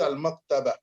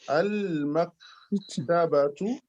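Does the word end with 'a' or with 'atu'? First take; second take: a; atu. First: The word ends short, with a final -a. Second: The word ends with the full syllables -atu.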